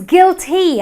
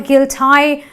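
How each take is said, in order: First: The word ends in a long 'ee' sound. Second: The word ends in a different vowel. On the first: The speaker calls it right. "the Y at the end of the word also gives me the long E sound" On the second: The speaker calls it wrong. "and not a guilt I"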